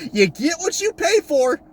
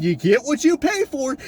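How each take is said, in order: First: "You get what you pay for" higher, slow, pressing on "pay"; slow emphatic repeat. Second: Said in the usual way. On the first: Shown as a demonstration. To fans, repeating the proverb slowly for emphasis. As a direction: hammer the proverb home. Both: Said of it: "you know the old saying".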